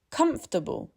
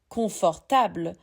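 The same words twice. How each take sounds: First: COMFORTABLE squeezed to KUMF-tuh-bul; comfortable, stress first, the rest reduced; reduced English vowels. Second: CONFORTABLE in even syllables with full vowels; French-style equal syllables. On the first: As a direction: say comfortable with two vowels dropped. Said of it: "Two of those vowels are gone". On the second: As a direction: say confortable the French way, every syllable weighted alike. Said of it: "four beautiful equal syllables". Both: Shown as a demonstration.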